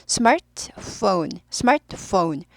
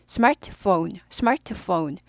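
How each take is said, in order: Both takes have the same delivery.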